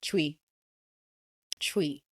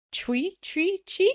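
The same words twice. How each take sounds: First: "Chui" said low with falling tune; a lower, falling "Chui", no question in it; settled answer. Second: "Chui? Chui? Chi?" tried with high rising tune; guessing at "Chui", each try lifted high at the end; unsure, questioning. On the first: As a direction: land "Chui" as a statement, pitch dropping. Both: Real, not acted. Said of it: "How do you say it?".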